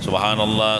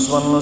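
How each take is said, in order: First: It is said slowly and clearly. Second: It is said quickly and unclearly. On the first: The speaker calls it right. "Bacanya bujur-bujur" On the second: The speaker calls it wrong. "daripada cepat"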